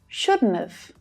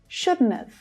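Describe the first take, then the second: First: The words are run together in a contraction. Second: The same.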